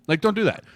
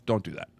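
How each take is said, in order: First: "don't" pitched much higher and louder; emphatic repeat. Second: Said in the usual way. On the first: Retold or imitated. Coach warning a recruit again, emphatic "don't". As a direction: hit "don't" hard the second time. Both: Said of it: "I go".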